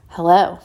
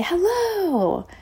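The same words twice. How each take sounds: First: Curt, loud hostile greeting; imitated dismissive hello, pitch kept down; judgmental hello. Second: Very high, drawn-out greeting falling at the end; exaggerated polite high hello; friendly sing-song hello. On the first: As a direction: say hello as if sizing up an unwelcome stranger. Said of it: "it was with that tone". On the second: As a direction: greet the shopkeeper in a high chirpy singsong. Her own friendly greeting, acted out.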